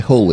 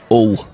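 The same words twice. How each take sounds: First: The word begins with an audible h sound. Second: The word begins without any h sound. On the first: The speaker calls it wrong. "You don't say hull" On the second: The speaker calls it right. "There's no H in hull"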